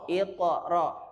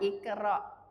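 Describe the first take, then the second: First: The q is deep and thick in the throat. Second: The k is light and thin at the front. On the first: The speaker calls it right. "Dia terangkat, tebal, bukan tipis" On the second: The speaker calls it wrong. "Bukan ikra"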